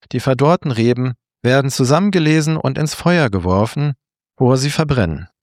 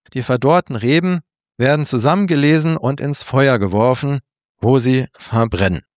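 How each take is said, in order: No difference in how they are said.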